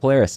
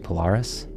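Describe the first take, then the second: First: It is said with an American pronunciation. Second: It is said with a non-American pronunciation. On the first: The speaker calls it wrong. "I've got to beat the American out of me" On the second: The speaker calls it right. "I think it's actually Polaris"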